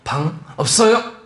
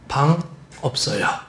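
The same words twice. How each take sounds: First: It is said loudly and forcefully. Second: It is said carefully and evenly, without force.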